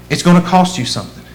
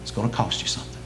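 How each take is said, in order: First: Fuller, faster restatement; firmer repeat. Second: Quiet warning. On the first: Preacher pressing the cost of following Jesus on the congregation. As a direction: say it again, pressing it home. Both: Acted. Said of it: "You wanna follow me?".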